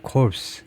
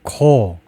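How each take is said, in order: First: The word ends with an s sound. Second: The word ends without an s sound. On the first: The speaker calls it wrong. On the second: The speaker calls it right.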